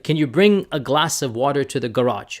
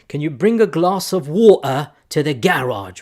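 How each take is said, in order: First: It is said in an American accent. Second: It is said in a British accent.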